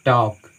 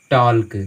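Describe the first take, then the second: First: टॉक with the L silent; vowel straight into K in टॉक; correct pronunciation. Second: टॉल्क with the L sounded before K; wrong pronunciation. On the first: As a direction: say टॉक as "tawk", no L. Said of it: "हम इसको पढ़ते हैं". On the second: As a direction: voice the L clearly in टॉल्क. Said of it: "वो गलत उच्चारण है". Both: Shown as a demonstration.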